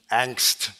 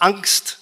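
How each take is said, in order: First: The word is pronounced the English way. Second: The word is pronounced the German way. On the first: "sondern Angst" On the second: "Nur im Englischen sagt man nicht Angst"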